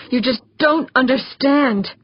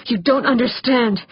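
First: Higher, exasperated, leaning on DON'T; frustrated stress on DON'T; insistent protest. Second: Mildly frustrated protest, UNDERSTAND stretched out; restrained desperate outburst; upset protest. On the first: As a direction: repeat it more desperately, DON'T punched. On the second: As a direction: push them away with a pained objection. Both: A narrator's reading. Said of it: "Abruptly, he pushed away from her".

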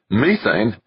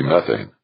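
First: "Methane" with a long ee, MEE-thayn; British pronunciation. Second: Said in the usual way. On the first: A narrator's reading. Westfall echoing Devlin, "Methane" said MEE-thayn. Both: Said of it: "She pronounced it methane".

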